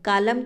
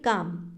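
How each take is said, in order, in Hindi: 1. M से पहले L की ध्वनि बोली जाती है। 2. M से पहले L की ध्वनि नहीं बोली जाती है। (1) "कालम तो हम नहीं कहते" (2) "हम सीधा कैसे बोलते हैं"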